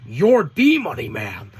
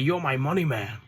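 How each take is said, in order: First: "the" punched loud and long; slow, loud emphasis landing on "the" in an acted plea; Don Callis. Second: Said in the usual way. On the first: Callis soothing Max as top earner, "the" heavily stressed.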